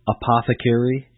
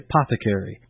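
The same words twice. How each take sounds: First: The word begins with a full 'a' sound. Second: The word begins without the 'a' sound. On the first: "instead of saying apothecary" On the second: "you drop the A because of being lazy in your speech"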